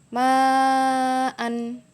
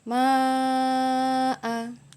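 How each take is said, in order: First: The word ends with an n sound. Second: The word ends on a long a vowel.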